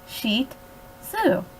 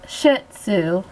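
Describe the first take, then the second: First: It sounds like 'sheet' followed by 'zoo'. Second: It sounds like 'shit' followed by 'sue'. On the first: The speaker calls it right. "like a bed sheet that you would put on your bed or mattress, plus a zoo" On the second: The speaker calls it wrong. "not like a pile of shit plus your aunt named Sue"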